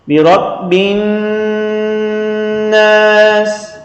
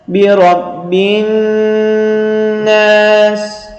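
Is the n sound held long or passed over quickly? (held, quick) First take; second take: held; held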